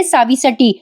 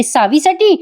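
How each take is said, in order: First: Said in the usual way. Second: "सावीसाठी" raised in pitch as a questioning echo. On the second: Retold or imitated. Girija challenges Priya over coming for Savi, "सावीसाठी" as a raised echo question. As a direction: throw "सावीसाठी" back as a higher question. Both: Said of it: "Girija पुढे येते आणि म्हणते".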